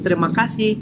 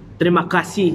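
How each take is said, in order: First: It is said lightly with an Indonesian accent. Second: It is said forcefully with an Arabic accent. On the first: "Kalau sini" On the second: "di aksen Timur Tengah, aksen Arabian ya. ... lebih kuat ya"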